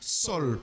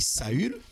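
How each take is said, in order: First: It is one syllable with s and an 'o'. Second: It starts with s, then 'a' and French 'u'. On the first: This is another form sometimes used. "on prononce aussi Sol, parce que A U, ça fait O" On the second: This is the usual French form. "en français, le U, on prononce U... c'est pourquoi on dit Saül"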